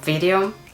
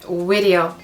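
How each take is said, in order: First: The word begins with a buzzing V sound. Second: The word begins with a rounded W sound. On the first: The speaker calls it right. "instead of video" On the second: The speaker calls it wrong. "video instead of"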